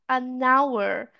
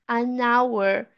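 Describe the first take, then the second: Both takes have the same delivery.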